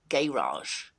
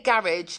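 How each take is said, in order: First: It is said with an American accent. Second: It is said with a British accent.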